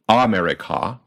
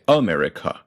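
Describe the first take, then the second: First: "America" with open "ah" first and last; full ah vowels. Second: "America" with "uh" first and last; reduced English vowels. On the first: Teacher showing the wrong vowels, "America" with full ahs. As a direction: say "America" as ah-merica-ah, unreduced vowels. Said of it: "are both a rather than ah". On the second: Teacher showing English vowels, "America" with weak uh at both ends. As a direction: say "America" the English way, uh-MER-i-kuh. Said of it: "we say America". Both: Shown as a demonstration.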